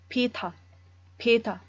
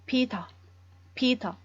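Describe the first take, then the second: Both takes have the same delivery.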